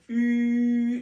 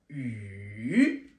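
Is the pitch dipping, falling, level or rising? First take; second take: level; dipping. First: The pitch stays high and level. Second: The pitch falls low, then rises again. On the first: "le premier ton" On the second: "c'est la pluie"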